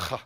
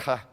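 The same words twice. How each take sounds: First: H scraped harder, deep in the throat; guttural. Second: H as a lightly scraped throat sound. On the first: Teaching the cough without doggish, guttural H. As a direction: make H a more guttural throat rasp. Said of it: "it's more guttural". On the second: Showing students the cough with doggish, light throat sound. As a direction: say H with only a light rasp at the back. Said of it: "it's just a, a h sound". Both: Shown as a demonstration.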